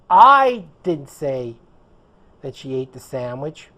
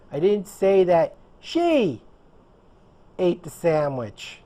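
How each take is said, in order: First: The word "I" carries the stress. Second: The word "she" carries the stress. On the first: Someone else said it. "which would mean it wasn't me. Someone else said it" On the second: Someone else did it. "I said that someone else did it"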